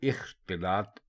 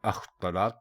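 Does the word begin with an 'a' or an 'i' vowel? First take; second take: i; a. First: The word begins with an 'i' vowel. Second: The word begins with an 'a' vowel. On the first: The speaker calls it right. "इख्तिलात दुरुस्त लफ्ज़ है" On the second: The speaker calls it wrong. "इसको लोग अख्तलात बोल देते हैं, जो गलत है"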